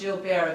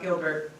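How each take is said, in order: First: The name is said with a French accent. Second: The name is said with an English accent.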